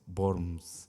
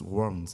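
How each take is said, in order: First: The word begins with a V sound. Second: The word begins with a W sound. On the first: The speaker calls it right. "La W en alemán se pronuncia como una V" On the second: The speaker calls it wrong. "no es Worms"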